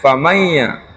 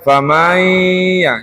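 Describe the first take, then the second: First: The ma syllable is short, without lengthening. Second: The ma syllable is drawn out long. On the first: The speaker calls it right. "Padahal famayya" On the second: The speaker calls it wrong. "Seolah-olah ma-nya itu panjang"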